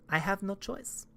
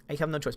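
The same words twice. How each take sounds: First: Mock despairing near-whisper. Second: Said in the usual way. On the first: Mock forced devotion repeated.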